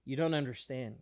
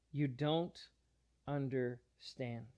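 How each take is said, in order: First: Said in the usual way. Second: "You don't understand" drawn out slowly and softer; slow the words right down, letting "understand" fall soft; slow, quieter emphasis on "understand"; slow, softer repeat. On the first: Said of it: "Jesus pushes back and he says". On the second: Retold or imitated. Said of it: "Jesus pushes back".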